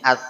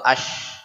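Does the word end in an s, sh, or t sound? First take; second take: t; sh. First: It ends in a t-like stopped sound. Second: It ends in a hushing sh sound. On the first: "Lidahnya naik ke atas. Yang bunyi at" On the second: "atau ash. Nggak jelas"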